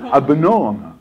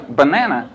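First: Banana as "buh-NAH-nuh"; British "banana". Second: Banana with short, flat "a", "buh-NAN-uh"; American "banana". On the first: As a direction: say banana with long English "ah". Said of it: "what we call that in England". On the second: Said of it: "They couldn't believe". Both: Retold or imitated.

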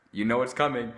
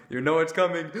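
First: Said in the usual way. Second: Laughing, louder repeat. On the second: Shown as a demonstration. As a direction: say it again with a laugh.

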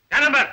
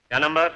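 First: Insistent repeated question. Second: Said in the usual way. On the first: Acted. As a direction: press for the unanswered number. (ज़ोर देकर ऊँची आवाज़ में पूछना)

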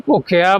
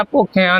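First: ਭੁੱਖਿਆ as "bhukhia", plain open ending; correct model reading. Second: ਭੁੱਖਿਆ as "bhukhian", nasal ending; wrong nasal reading. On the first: Teacher showing learners the right reading, careful pronunciation. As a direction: end ਭੁੱਖਿਆ without nasal sound. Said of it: "ਇਹਨੂੰ ਭੁੱਖਿਆ ਬੋਲਣਾ". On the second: Teacher warning learners of the mistake, nasal mispronunciation. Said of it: "ਨਹੀਂ ਬੋਲਣਾ". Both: Shown as a demonstration.

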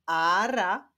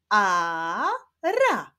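First: Said in the usual way. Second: "ara" split into a long a, then ra; syllable by syllable. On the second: Shown as a demonstration. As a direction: sound out "ara" slowly in two syllables. ("ara" powoli, sylabami: a, ra) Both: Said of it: "Pierwszą sylabą jest sylaba a".

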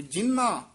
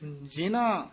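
First: ਜਿੰਨਾ as jin-naa, held n; ਜਿੰਨਾ with doubled n. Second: ਜਿਨਾ as ji-naa, light n; ਜਿਨਾ with single n. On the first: Teacher demonstrating the spelling, ਜਿੰਨਾ with doubled n. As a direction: linger on the n of ਜਿੰਨਾ. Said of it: "ਇਸ ਤਰ੍ਹਾਂ ਉਚਾਰਨ ਕਰਨੇ ਹਨ". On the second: Teacher demonstrating the spelling, ਜਿਨਾ with one n. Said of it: "ਨੰਨੇ ਦੇ ਹਲੰਤ ਤੇ ਕੰਨਾ". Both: Shown as a demonstration.

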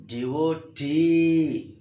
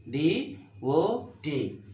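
First: "D O T" with a long, loud T; stress on last syllable. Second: D, O, T as three separate beats; syllable by syllable. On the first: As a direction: lean hard on the final T of "D O T". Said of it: "See how the rising letter here?". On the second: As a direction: pause after each part of "D O T". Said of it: "Three syllables are there". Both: Shown as a demonstration.

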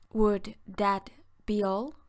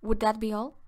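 First: Slowed, deliberate repeat for learners; slow clear teaching repeat; slow and careful. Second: Said in the usual way. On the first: Shown as a demonstration. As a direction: stretch each word out for the class. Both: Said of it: "Se dice".

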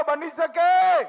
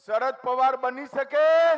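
First: બની શકે asked again much louder and slower, falling on શકે; louder, slower call. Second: Said in the usual way. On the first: Shown as a demonstration. Politician pushing the rally crowd to shout back, loud slow call. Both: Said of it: "અરે જોરથી બોલો".

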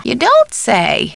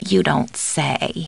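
First: High, stretched "don't"; surprised take. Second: Low, soft, very slow; subdued take. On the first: Housekeeper hearing news from caller, surprised. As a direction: swoop up on "don't" and draw it out. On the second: Housekeeper hearing news from caller, subdued. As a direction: say it slowly and quietly, unimpressed. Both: Acted. Alternate takes of stock line.

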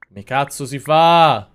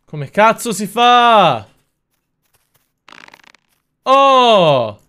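First: Slow, stretched-out exasperated ask; exasperated question. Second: High, loud, slow drawn-out yell; exasperated yell. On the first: Streamer asking his chat, fed up and slow. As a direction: drag it out, fed up with the game. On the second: Streamer yelling at the game, slow and loud. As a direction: bellow it at the screen, losing patience. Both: Real, not acted. Frustrated at game, asks chat.

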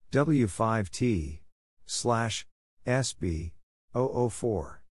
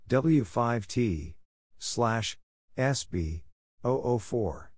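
No difference in how they are said.

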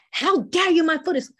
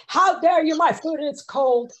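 First: Louder and higher "How dare you?"; outraged protest. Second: "How dare you?" much louder, thrown at them; yelling it flat out, the way not to do it; overdone shout. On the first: Teacher showing outrage at cold food. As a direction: push forward into their face. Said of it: "So it's". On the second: Teacher showing the wrong, overblown outrage. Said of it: "you don't say". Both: Shown as a demonstration.

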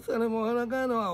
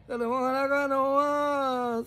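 First: Said in the usual way. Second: Chanted, drawn out, slow mocking shout; chanted, slow mocking singsong shout; slow chanted taunt. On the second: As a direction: chant it like a playground jeer. Chanted taunt about Fey.

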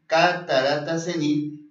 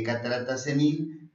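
First: "catarata senil" said again slowly and louder, each syllable stressed; slow emphatic repeat. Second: Said in the usual way. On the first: Shown as a demonstration. Radio doctor repeating the diagnosis for listeners, slow and emphatic. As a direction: spell out "catarata senil" for viewers, slow and firm.

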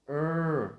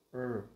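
First: "er" high, loud and long; tense stressed er. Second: "er" short, light, at an everyday pitch; relaxed er. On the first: Teacher contrasting two sounds, tense loud er. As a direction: push "er" out with a forceful tongue. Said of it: "lưỡi của mình sẽ phải dùng lực khá là nhiều". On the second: Teacher contrasting two sounds, relaxed short er. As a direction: release "er" loosely without stress. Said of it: "thì thật thả lỏng thôi". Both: Shown as a demonstration.

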